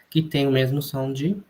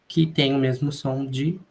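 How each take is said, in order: No difference in how they are said.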